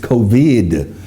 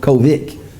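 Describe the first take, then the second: First: The word is carefully enunciated, every sound clear. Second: The word is said casually, sounds not fully articulated. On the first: The speaker calls it right. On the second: The speaker calls it wrong. "no, it's not COVID"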